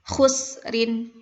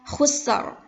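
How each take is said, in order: First: The word ends with a vowel plus n. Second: The word ends on a bare consonant. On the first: The reading continues past this word. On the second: The reader stops at this word.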